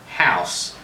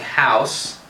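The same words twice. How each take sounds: First: The diphthong has a Southern US vowel quality. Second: The diphthong starts with a central a vowel. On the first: "in certain southern accents, people who say house" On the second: "in general American you might hear something like house"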